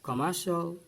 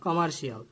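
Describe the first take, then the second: First: The ending is said as 'shal'. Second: The ending is said as 'shee-al'. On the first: The speaker calls it right. "In English there is no শিয়াল" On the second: The speaker calls it wrong. "Not কমার্শিয়াল"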